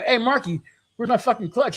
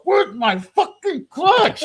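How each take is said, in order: First: Raised-pitch retold confrontation; higher, testy acted question; annoyed demand. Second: High, loud, drawn-out yell; acted outburst, stretched and screamed out; furious yelled demand. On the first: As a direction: call him out, irritated but not yet yelling. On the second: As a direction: blow up, hammering each word slowly. Escalated repeat of the demand.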